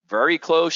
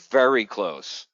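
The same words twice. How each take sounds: First: "Very close?" asked higher and louder, rising in disbelief; surprised question. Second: "Very close." said slowly with a falling close; grave confirmation. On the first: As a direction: echo her words in shocked disbelief. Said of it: "I'm like". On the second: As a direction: confirm it slow and serious, no lift at the end. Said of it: "She goes". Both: Retold or imitated.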